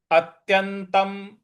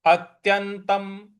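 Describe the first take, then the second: No difference in how they are said.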